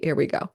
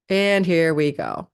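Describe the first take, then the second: First: Said in the usual way. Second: And here we go, stretched slowly; slow and drawn out. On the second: Shown as a demonstration. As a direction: drag out And here we go like a big start.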